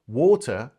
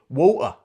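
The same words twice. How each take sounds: First: The middle consonant is a clear T sound. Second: The middle consonant is a stop in the throat. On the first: "instead of saying water" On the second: "she would say water ... You stop. It's called a glottal stop"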